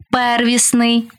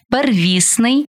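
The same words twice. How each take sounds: First: ПЕРвісний, stressed on the first syllable. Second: ПерВІСний, stressed on the second syllable. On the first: Teacher showing variant stresses to student, first-syllable stress on первісний. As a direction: punch ПЕР in первісний. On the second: Teacher showing variant stresses to student, second-syllable stress on первісний. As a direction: hit ВІС in первісний. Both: Shown as a demonstration. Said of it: "Такий наголос ще називають варіантним".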